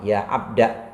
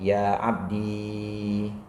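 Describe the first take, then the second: First: The word ends in a short a vowel. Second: The word ends in a long i vowel. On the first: "tapi alif dibuang" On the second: "menetapkan ya mutakalimnya"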